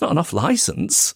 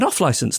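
First: The stress falls on the word licence. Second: The stress falls on the word off. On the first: The speaker calls it wrong. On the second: The speaker calls it right. "It's the stress on the off rather than on-licence most people go with"

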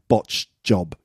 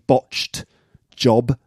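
First: The past-tense ending on 'botched' is dropped. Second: The past-tense ending on 'botched' is pronounced. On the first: "but it sounds like botched job" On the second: "I think it's actually botched job"

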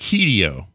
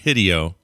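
First: The first vowel is a long E sound. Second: The first vowel is a short I sound. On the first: The speaker calls it right. "The I is always pronounced with a long E sound" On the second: The speaker calls it wrong. "There is no short I sound in Japanese"

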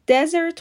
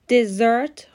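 First: The stress is on the first syllable. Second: The stress is on the second syllable. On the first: It means a dry, barren land. "استرس روی سیلاب اوله" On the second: It means a sweet course after a meal. "استرس روی سیلاب دومه"

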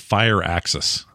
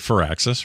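First: The first syllable sounds like 'fire'. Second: The first syllable sounds like 'for'. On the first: "Somebody told me it's Fire Axis" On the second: "you guys say for Axis"

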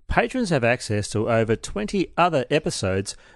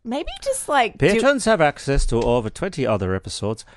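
First: It is read in a South African accent. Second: It is read in an Irish accent. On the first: "That's the worst fucking South African accent" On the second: "I'll do it in Irish now"

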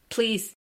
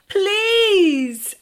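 First: It is said flatly, without enthusiasm. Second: It is said with more passion and energy.

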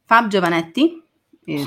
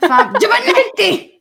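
First: The name is said in a calm, normal way. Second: The name is said angrily, like an Italian.

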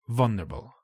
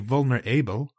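First: The vowel before the b is almost silent. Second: The vowel before the b is fully pronounced. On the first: The speaker calls it right. "The A is almost silent" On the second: The speaker calls it wrong. "we don't say vulnerable"

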